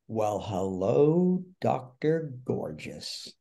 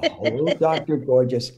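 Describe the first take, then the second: First: Slow, drawn-out mock swooning; flirty fan greeting. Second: Brisker repeat of a fan's flirty hello; lightly imitated fan greeting. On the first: Fan with microphone greets the actor on stage, slow mock flirtation. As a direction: savour each word like an admiring fan, slowly. Imitating an admiring fan's greeting. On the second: Retelling the fan's greeting to the actor, lively light imitation. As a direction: recap the fan's greeting with more punch.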